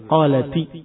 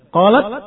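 First: The word ends with an added i vowel. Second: The word ends on a bare t sound. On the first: The speaker calls it right. "taknya dikasrahkan, baru bisa dibaca" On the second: The speaker calls it wrong. "Dua huruf mati kalau bertemu susah dibaca"

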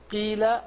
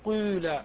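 First: The first vowel is a pure i. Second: The first vowel falls between i and u. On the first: "ليست قيل" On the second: "فتجتمع عندك الضمة والكسرة فتقول قيل قيل"

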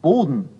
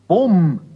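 First: The word is said with a clear d sound. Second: The d is dropped and the word ends in m. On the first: "heißt nicht unbedingt Boden" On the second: "sondern oft recht deutlich Bom"

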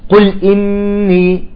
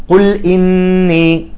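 The two takes are said the same way.

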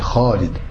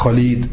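First: The first vowel is stretched out long. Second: The first vowel is short and clipped. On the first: The speaker calls it right. "c'est Khalid. Yamed, Alif" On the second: The speaker calls it wrong. "C'est pas Khalid"

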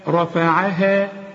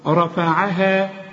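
The two takes are said the same way.

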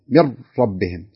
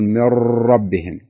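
First: The r has no trill, sounding close to l. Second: The r has an exaggerated, long trill. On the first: "لو فرض أني ما كررت" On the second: "بعض الناس يبالغ فيها"

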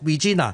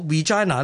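First: It is pronounced the way Hong Kong speakers say it. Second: It is pronounced in the traditional British way. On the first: This follows the local and Latin usage. "我就跟翻香港人所读Regina" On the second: This follows the traditional English usage. "如果大家要跟足英国人嘅传统发音咧，读Regina 咧"

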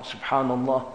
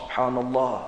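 The two takes are said the same way.

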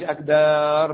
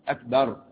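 First: A vowel is stretched out long. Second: The vowels are kept short, not stretched. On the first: The speaker calls it wrong. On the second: The speaker calls it right.

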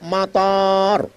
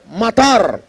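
First: The vowel after the m is long. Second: The vowel after the m is short. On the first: It means airport. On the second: It means rain.

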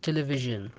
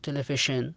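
First: The middle consonant is a voiced zh sound. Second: The middle consonant is a voiceless sh sound. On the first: The speaker calls it right. "بل تنطق تلفيجن" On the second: The speaker calls it wrong. "ولا تقول بالشاء تنطق تلفيشن"

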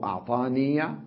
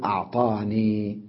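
First: The final ya carries a short 'a' vowel. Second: The final ya ends with no vowel. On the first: The word is joined to what follows. "ممكن يقول الله أعطاني بالوصل" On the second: The speaker pauses on the word. "ولما يقف عليها يقول أعطاني بسكنها"

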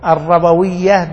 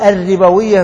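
First: The vowel after the first r is 'a'. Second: The vowel after the first r is 'i'. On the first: The speaker calls it wrong. "ولا تقل ها الربوية بال" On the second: The speaker calls it right. "وقل الربوية بالكسر"

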